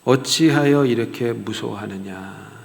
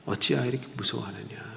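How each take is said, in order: First: 어찌하여 drawn out slowly at full voice; slow rebuke. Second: 어찌하여 said much softer; soft repeat. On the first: Jesus rebuking the disciples, slow and weighty. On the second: Jesus repeating the rebuke to the disciples, softly. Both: Shown as a demonstration. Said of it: "이렇게 책망하십니다".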